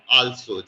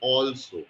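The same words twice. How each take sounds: First: The first vowel sounds like an 'a' vowel. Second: The first vowel sounds like an 'o' vowel. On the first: The speaker calls it wrong. "If I was to pronounce this way, according to the words that are being used, it will become also, just like you say" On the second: The speaker calls it right. "it is O L S O, you can pronounce it like also"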